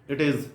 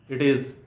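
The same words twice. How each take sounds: Both takes have the same delivery.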